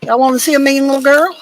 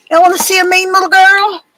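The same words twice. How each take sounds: First: Said in the usual way. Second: Higher and louder, proud sing-song; excited pet talk. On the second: Real, not acted. Owner proudly showing her dog to viewers, high excited pet talk. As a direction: show off the little dog with glee.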